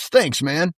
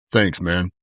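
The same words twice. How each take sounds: First: Higher, lightly voiced passing thanks; Hacksaw Jim Duggan's thanks. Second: Lower, lightly voiced deep thanks of a tall athlete; deep Scottie Pippen voice. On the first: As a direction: toss off a quick raised-pitch thanks. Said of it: "And he goes". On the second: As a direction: drop low for a casual, understated thanks. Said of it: "in his deep Scottie Pippen voice".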